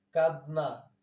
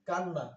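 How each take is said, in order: First: কাদনা with a distinct d before n; original pronunciation. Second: কান্না with d melted into a double n; assimilated pronunciation. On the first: Teacher showing the word before assimilation, কাদনা with clear d. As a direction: keep the d audible in কাদনা. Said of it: "কাদনা থেকে কান্না". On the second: Teacher showing the slight change inside a word, double-n কান্না. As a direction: hold the long n in কান্না. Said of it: "সামান্য পরিবর্তন". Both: Shown as a demonstration.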